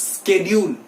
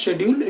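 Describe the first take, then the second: First: "schedule" as SKED-yool, slowly; hard sk opening on "schedule"; professional schedule. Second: "schedule" as SHED-yool, rising; sh opening on "schedule"; common schedule. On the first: Teacher corrects students, sk onset. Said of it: "it is schedule". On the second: Teacher shows what it is not, sh onset. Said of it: "It is not schedule". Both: Shown as a demonstration.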